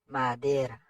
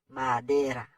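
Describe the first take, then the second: No difference in how they are said.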